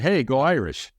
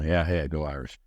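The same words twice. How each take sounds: First: Fuller, more upbeat passing cheer; livelier greeting. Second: Low, soft, offhand acknowledgement; half-hearted reply. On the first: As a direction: imitate a fan greeting back with some spirit. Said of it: "But he's like". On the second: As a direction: imitate a passerby who barely engages. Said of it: "I expected the, uh, you know, like you said". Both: Retold or imitated.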